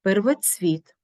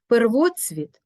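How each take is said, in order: First: Первоцвіт as первоЦВІТ; stress on last syllable. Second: Первоцвіт as перВОцвіт; stress on ВО. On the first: Teacher showing double stress, первоцвіт stressed on ЦВІТ. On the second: Teacher showing double stress, первоцвіт stressed on ВО. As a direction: hit ВО in первоцвіт. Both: Shown as a demonstration. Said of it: "мають подвійний наголос".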